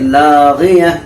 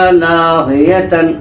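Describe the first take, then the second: First: The word ends with a silent -ah sound. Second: The word ends with the nunation sound -tan. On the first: The speaker calls it right. "ओ ता हाय साकना बन जाती है" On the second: The speaker calls it wrong. "लागियतन का वक्फ नहीं करेंगे"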